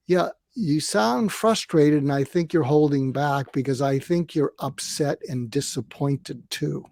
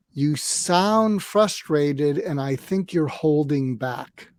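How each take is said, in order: First: Calm repeat. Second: Slow, calm and even, no edge; calm demo. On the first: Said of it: "it's like a martial arts move". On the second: Coach demonstrating a calm reply to an upset partner. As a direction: model the calm reply slowly. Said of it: "here's the fud crud technique". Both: Shown as a demonstration.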